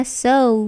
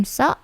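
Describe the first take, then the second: First: "so" drawn out as "soh-oo"; long diphthong in "so"; English OU glide. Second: "so" short, like "saw" cut off; stubby monophthong "so"; wrong pure O. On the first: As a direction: say "so" with a gliding vowel. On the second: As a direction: say "so" with no vowel glide. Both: Shown as a demonstration. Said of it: "bukan so".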